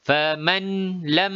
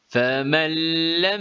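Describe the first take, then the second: First: The n sound is pronounced clearly before l. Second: The n sound merges completely into the l. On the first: The speaker calls it wrong. "nun dijelaskan bacaannya" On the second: The speaker calls it right. "Bacaan yang betul seperti berikut"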